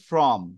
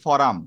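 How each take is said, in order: First: The f and r join with no vowel. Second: A vowel is inserted between f and r. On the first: The speaker calls it right. "দেওয়া আছে ফ্রম" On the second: The speaker calls it wrong. "আপনি বলছেন ফরাম"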